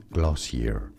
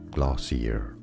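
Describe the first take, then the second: First: It is said the American English way. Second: It is said the American English way.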